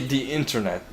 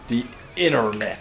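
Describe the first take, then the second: First: The word is said with a clear t sound. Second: The word is said as inner-net, without t. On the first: "They they they don't say the internet" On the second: "like I N N E R, inner, and then net"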